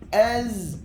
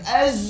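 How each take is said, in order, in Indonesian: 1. Desis z ringan dan lembut. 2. Desis z kuat dan keras. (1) "Dia sikit" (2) "Dia bukan az. Jangan terlalu kuat"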